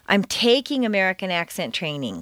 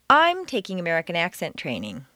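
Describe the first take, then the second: First: It sounds earnest and hard-working. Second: It sounds arrogant, with stress on I.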